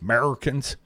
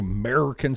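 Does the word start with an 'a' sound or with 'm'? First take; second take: m sound; a sound. First: The word begins directly with the 'm' sound. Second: The word begins with the 'a' sound.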